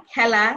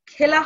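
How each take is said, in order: First: খেলা with open e, "khæla"; correct pronunciation. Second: খেলা with closed e, "khela"; wrong pronunciation. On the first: Teacher correcting with the right খেলা. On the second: Teacher showing the wrong খেলা. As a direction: say খেলা with a tight e as in the wrong version. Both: Shown as a demonstration. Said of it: "খেলা হবে না".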